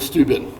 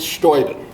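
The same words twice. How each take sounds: First: The name is said with a French pronunciation. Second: The name is said with a German pronunciation. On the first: "in the French fashion" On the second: "Hochdeutsch, in High German, it's Steuben"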